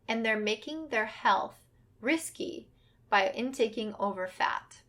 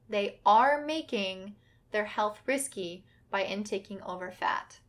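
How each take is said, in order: First: The verb is said without special emphasis. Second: The words 'are making' are emphasized.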